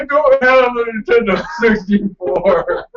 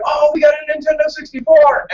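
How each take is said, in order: First: High, loud drawn-out wail breaking into laughter; mock despair. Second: Put-on high, loud burst of childlike joy; excited exclamation. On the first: Gamer retelling waking up without the console, mock-devastated. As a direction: wail it slowly in comic dismay. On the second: Gamer retelling the first good dream, elated. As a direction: squeal it like a dream come true.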